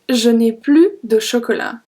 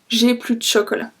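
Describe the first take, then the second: First: The full form with 'ne' is pronounced. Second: The 'ne' is dropped and 'je' shortened.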